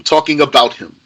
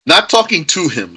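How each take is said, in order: First: "about" picked out as the correction, then falling; stress on "about". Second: "to" picked out, then falling away; stress on "to". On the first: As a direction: lean on the second syllable of "about". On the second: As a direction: lean on "to" to set up a contrast. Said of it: "you're talking about him". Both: Shown as a demonstration.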